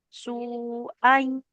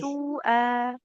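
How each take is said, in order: First: The ending merges into the following y sound. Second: The final vowel is drawn out long. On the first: The speaker calls it right. "Tekan di huruf ya-nya" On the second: The speaker calls it wrong. "Bukan su'a, nggak panjang"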